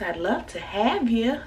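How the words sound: It is said in a strong Southern accent.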